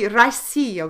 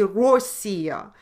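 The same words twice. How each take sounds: First: The first vowel is reduced to an 'a' sound. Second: The first vowel is a full 'o' sound. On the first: The speaker calls it right. "we still say Россия" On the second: The speaker calls it wrong. "We never say Россия. Only in certain small areas of Russia they emphasize O"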